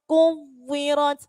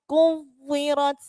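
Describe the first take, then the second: Both takes have the same delivery.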